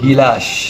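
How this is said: It is said in Natore regional pronunciation. "নাটোরের আঞ্চলিক ভাষা"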